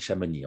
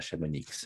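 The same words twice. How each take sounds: First: The name ends without a final x sound. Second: The name ends with a sounded final x. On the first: This is how it is said in Switzerland. "en Suisse on dit Chamonix ... Chez nous on ne prononce pas le X final" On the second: This is not how it is said in Switzerland. "on ne dit pas Chamonix"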